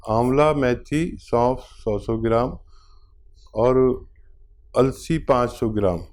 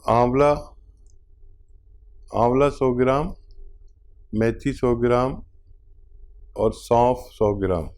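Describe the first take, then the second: First: Slowed down, each word spaced out for writing; slow dictation. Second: Said in the usual way. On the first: Shown as a demonstration. Doctor dictating the remedy list to the caller, slowly. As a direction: read the list slowly so the caller can note it. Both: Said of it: "लिख लीजिए".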